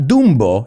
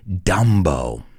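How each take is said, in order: First: The name has a Spanish-style pronunciation. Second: The name has an English pronunciation. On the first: The speaker calls it wrong. "it's not Dumbo in English" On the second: The speaker calls it right. "we say Dumbo"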